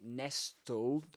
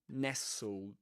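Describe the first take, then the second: First: The t sound is pronounced in the middle. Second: The t sound is dropped from the middle. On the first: The speaker calls it wrong. "You don't say nestled" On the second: The speaker calls it right. "but nestled"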